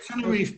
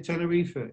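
First: The name is said with an English pronunciation. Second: The name is said with a Spanish pronunciation.

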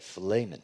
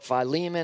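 First: The vowel after the L sounds like A. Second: The vowel after the L sounds like E. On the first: "technically in the Greek, if you really want to know, there's an A, that E there is A" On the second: "some might call it Philemon"

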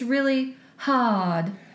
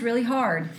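First: It is said with an exaggerated Southern drawl. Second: It is said with a natural Texas accent. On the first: This is an outsider's fake Texas accent. The speaker calls it wrong. "That's the way the girl was saying it. That's not how you say it if you're from Texas" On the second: This is how a real Texan says it. The speaker calls it right. "If you're from Texas, you might say"

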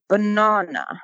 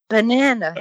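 First: The word is said with a British pronunciation. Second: The word is said with an American pronunciation. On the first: The speaker is newly arrived from England. "because of the way he pronounced it" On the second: This is how locals say it. "It's banana here"

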